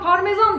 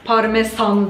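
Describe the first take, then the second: First: The s sound is softened and relaxed. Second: The s sound is pressed hard and crisp. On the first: "Yumuşuyor o" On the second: "böyle bastıra bastıra"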